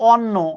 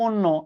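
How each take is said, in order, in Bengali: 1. প্রথম স্বরধ্বনিটি একটি খোলা 'aw' ধ্বনি। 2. প্রথম স্বরধ্বনিটি একটি বন্ধ 'o' ধ্বনি। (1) "আপনি হয়তো বলেন" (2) "এটা উচ্চারণ কিন্তু"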